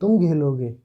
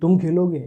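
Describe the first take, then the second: First: It is said as a scornful exclamation. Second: It is said as an asking question. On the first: It expresses surprise and contempt at someone playing. "विस्मयादि बोधक, यानी कि तिरस्कार के बोधक" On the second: It asks whether someone will play. "प्रश्नवाचक पूछने की बात हुई"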